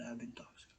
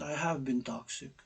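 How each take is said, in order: First: Hushed, unvoiced confession of "toxic"; soft whispered admission, much softer. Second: Said in the usual way. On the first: Real, not acted. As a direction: whisper it like a secret.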